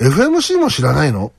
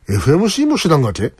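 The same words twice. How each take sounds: First: Said in the usual way. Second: Toyama-dialect question ending in がけ; tentative attempt at a Toyama accent. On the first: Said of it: "けがよくつきます。". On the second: Shown as a demonstration. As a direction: ask it with a Toyama lilt. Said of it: "富山弁は疑問形の語尾に".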